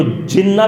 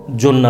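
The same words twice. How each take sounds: First: "جنہ" said as "jinna"; short i in the first syllable of "جنہ"; zer on jim. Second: "جنہ" said as "junna"; short u in the first syllable of "جنہ"; pesh on jim. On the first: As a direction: read "جنہ" with zer, "JIN-na". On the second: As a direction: read "جنہ" with pesh, "JUN-na". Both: Shown as a demonstration. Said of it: "بھی پڑھا جا سکتا ہے".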